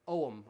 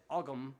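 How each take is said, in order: First: Ogham said with a silent g, "OH-um"; alternative pronunciation. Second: Ogham said with a hard g, "OG-um"; habitual pronunciation. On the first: Musician guessing the proper way, silent-g Ogham. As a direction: drop the g from Ogham, long opening o. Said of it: "I think it's pronounced differently". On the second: Musician admitting how he's always said it, hard-g Ogham. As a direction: pronounce the g in Ogham. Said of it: "I've always said Ogham, but I think it's pronounced differently". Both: Shown as a demonstration.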